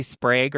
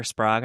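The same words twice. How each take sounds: First: Sprague with a long A, as in vague; long-A pronunciation. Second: Sprague with an open "ah", like "Sprahg"; open-A pronunciation. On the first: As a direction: say Sprague to rhyme with "plague". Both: Shown as a demonstration. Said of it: "I don't know how to pronounce it".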